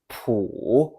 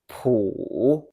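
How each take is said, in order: First: The pitch dips low and then rises. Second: The same.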